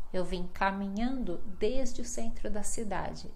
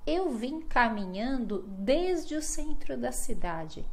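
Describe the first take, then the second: No difference in how they are said.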